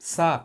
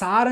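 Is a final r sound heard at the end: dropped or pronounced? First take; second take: dropped; pronounced. First: The word ends on the vowel, no r sound. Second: The word ends with an audible r sound. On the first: The speaker calls it right. "సా అని పలకాలి" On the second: The speaker calls it wrong. "సార్ అని చెప్పకూడదు"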